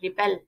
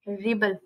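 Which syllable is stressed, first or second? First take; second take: second; first. First: The stress is on the second syllable. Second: The stress is on the first syllable. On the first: It names the act of rebelling. "B के ऊपर stress डालेंगे" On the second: It names rebellion, a thing. "आर के ऊपर हमें stress देना है"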